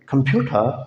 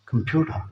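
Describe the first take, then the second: First: The t is a clear t sound. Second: The t sounds like a soft d.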